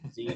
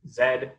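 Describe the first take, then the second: First: The letter is said the American way. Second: The letter is said in a non-American way.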